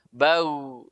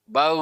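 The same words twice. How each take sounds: First: BAU with a brief voiced gh at the end; not too long. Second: BAU with the final voiced gh dragged out too long; held too long. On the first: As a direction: keep the tail of BAU short, voice only. (bau benar, tidak lama-lama) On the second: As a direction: overdo it, stretching the end of BAU. (bau salah, terlalu lama) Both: Shown as a demonstration. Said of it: "enggak, terlalu lama".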